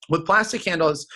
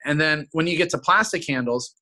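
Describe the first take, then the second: First: "plastic handles" said with a touch of scorn, as if it smells; disgusted tone. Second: Said in the usual way. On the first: Shown as a demonstration. Rep showing the customer a disgusted tone. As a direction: sneer lightly at "plastic handles". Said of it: "you wanna use the tone of voice that nobody in their right mind would ever use". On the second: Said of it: "the tone of voice that nobody in their right mind".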